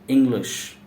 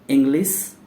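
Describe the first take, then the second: First: The word ends with an sh sound. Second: The word ends with a plain s sound. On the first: The speaker calls it right. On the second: The speaker calls it wrong.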